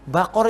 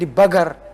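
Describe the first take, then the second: First: The middle consonant is a deep throaty q. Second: The middle consonant is a hard g. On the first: This is the standard pronunciation. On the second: This is how Saudis and some Sudanese and Yemenis say it.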